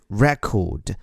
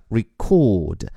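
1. 重音在第一个音节上。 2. 重音在第二个音节上。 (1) "而在这里作为名词就是record" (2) "如果这个词是动词就应该发作record……而且重音在第二个音节上record"

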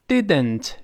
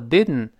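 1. 这个词说得慢而且完整。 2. 这个词说得快，带鼻腔爆破。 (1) "Didn't 是慢慢读" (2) "读快了之后didn't 就鼻腔爆破了"

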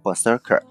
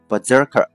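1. 'ber'后面的辅音是清音s。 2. 'ber'后面的辅音是浊音z。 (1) "不是berserker" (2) "它被浊化成z 的音啊，就是读成berserker"

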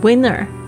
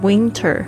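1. n 后面的 t 音被省略了。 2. n 后面的 t 音清楚地发出来了。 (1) "变成winner" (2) "或者是winter"

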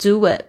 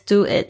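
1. 两个词之间有一个轻的 w 音连接。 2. 这两个词说的时候没有 w 音连接。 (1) "必须要有一个word 的声音" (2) "不是"

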